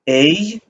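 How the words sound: The vowel glides like English 'ay'.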